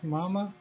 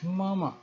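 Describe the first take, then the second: First: The word ends openly, without a throat closure. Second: The word falls slowly and ends with throat closure. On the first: It means mother. The speaker calls it wrong. "It is not mama" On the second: It addresses an adult man. The speaker calls it right. "goes down and then the throat is closed"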